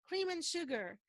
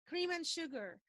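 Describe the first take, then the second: No difference in how they are said.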